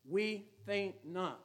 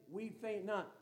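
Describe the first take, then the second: First: Each word laid down slowly, "We" leading; solemn, measured "We Faint Not"; slow title declaration. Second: "We faint not" with the weight on "not"; steady close of the refrain; refrain, stress on not. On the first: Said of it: "Title of the message". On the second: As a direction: finish the motto landing on not. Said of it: "Christian lady". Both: Real, not acted.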